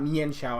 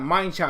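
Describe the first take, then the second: First: The first syllable sounds like mee-an, two vowels. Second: The first syllable sounds like the word mind. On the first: "not Mian Shao. I hate when people say that" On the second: "I'm gonna call it mind Shao because that's his name"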